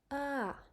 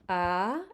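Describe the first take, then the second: First: The pitch goes up, then falls down. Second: The pitch starts mid and rises high. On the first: "The voice goes up and then back down" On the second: "make sure your voice has a very high pitch"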